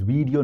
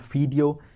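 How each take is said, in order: First: It begins with a v sound. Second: It begins with an f sound. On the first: The speaker calls it right. "video is video" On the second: The speaker calls it wrong. "not video"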